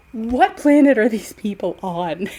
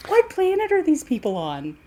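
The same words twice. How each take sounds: First: Said in the usual way. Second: Higher, laughing disbelief; incredulous laughing. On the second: Real, not acted. Repeats question, laughing in disbelief.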